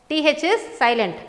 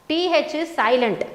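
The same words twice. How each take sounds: Both takes have the same delivery.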